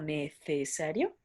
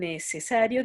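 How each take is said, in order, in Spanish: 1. La c suena como una th. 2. La c suena como una s. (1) "dirían como necesario" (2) "No dicen necesario"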